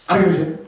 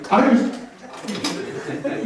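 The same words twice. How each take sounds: First: Flat defiant dismissal; defiant mantra. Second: Spaced out, with a pause before "shit"; slow emphatic repeat. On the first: Leading the audience in a mantra, defiant shrug. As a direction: shrug it off firmly. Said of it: "we're gonna say". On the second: Repeating the mantra for the crowd, deliberate pause before "shit". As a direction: hold a beat, then land "shit". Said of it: "Did you catch that?". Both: Shown as a demonstration.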